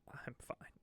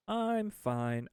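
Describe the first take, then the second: First: Breathy whisper of I'm fine. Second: I'm fine popped up high; chirpy I'm fine. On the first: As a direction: murmur I'm fine under your breath. Whispered reassurance after crisis joke. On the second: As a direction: bounce I'm fine up brightly. Cheery repeat of I'm fine. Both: Pretend.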